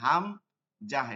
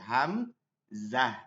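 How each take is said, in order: First: The middle consonant is a j sound. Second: The middle consonant is a z sound. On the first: The speaker calls it wrong. "এটা জিম থেকে হয় হাম জাহ" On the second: The speaker calls it right. "কিন্তু এটা হবে ঝা থেকে হাম জাহ"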